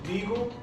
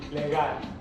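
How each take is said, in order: First: It is pronounced with English sounds. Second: It is pronounced with Spanish sounds. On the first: "I'm going to pronounce it in English first" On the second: "and then I'm going to pronounce it in Spanish"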